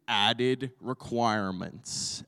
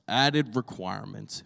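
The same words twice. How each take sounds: First: Slow, weighty title reading; slow and deliberate title; title announced slowly. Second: Said in the usual way. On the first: Shown as a demonstration. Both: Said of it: "Today, my title is".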